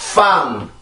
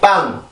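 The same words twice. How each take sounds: First: It starts with an f sound. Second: It starts with a tense Korean pp sound. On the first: "영어로 F를 쓰게 되면 빵" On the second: "우리나라 쌍비읍 같은 경우는 빵이라고"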